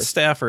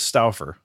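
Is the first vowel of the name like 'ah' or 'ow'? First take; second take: ah; ow. First: The first vowel sounds like 'ah'. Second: The first vowel sounds like 'ow'. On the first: The speaker calls it wrong. "It's not Stauffer" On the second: The speaker calls it right. "it's Stauffer"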